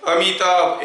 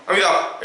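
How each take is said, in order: First: Amitabh said clearly, every syllable audible; measured, distinct Amitabh for a demonstration; clearly spaced syllables. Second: Amitabh rushed so the syllables blur together; hurried, slurred Amitabh as a demonstration; too fast. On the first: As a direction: give each sound of Amitabh its room. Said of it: "ऐसे बोलूँगा तो सुनाई दे रहा है". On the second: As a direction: race through Amitabh until it is unclear. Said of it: "ज़्यादा speed में अगर बोलूँगा". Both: Shown as a demonstration.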